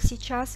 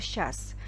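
First: The word is said in its full form. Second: The word is said in a shortened, reduced form.

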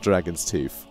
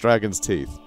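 First: Teeth ends with an f sound. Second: Teeth ends with a th sound. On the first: The speaker calls it wrong. "not Dragon's Teeth" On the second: The speaker calls it right. "It's Dragon's Teeth"

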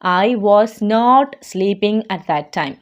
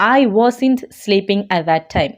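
First: 'Was not' is said as two full words. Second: 'Was not' is contracted to one word. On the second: "വാസ് ഇൻറ്റ് എന്ന് നമുക്ക് pronounce ചെയ്യാം"

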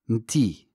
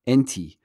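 First: The word begins directly with a consonant. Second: The word begins with a vowel. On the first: This is how it sounds in Moroccan. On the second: This is the fuller form used in most dialects.

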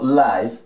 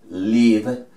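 First: Pronounced the way the adjective 'live' sounds. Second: Pronounced the way the verb 'to live' sounds. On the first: It means happening in real time. "y vamos a pronunciarlo live, esta misma palabra, cuando estamos hablando del adjetivo vivo" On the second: It means to reside or be alive. "vamos a pronunciar esta palabra con sonido live, live, cuando estamos refiriéndonos al verbo vivir"

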